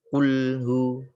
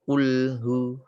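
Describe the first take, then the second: No difference in how they are said.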